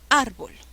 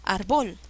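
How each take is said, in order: First: The stress is on the first syllable. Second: The stress is on the second syllable. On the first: The speaker calls it right. "Suena bien" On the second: The speaker calls it wrong. "No, suena pésimo"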